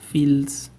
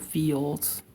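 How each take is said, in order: First: The L is a clear consonant L. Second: The L sounds like an O vowel.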